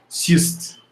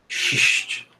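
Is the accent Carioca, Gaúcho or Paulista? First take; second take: Paulista; Carioca. First: It is said in a Paulista accent. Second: It is said in a hissing Carioca accent.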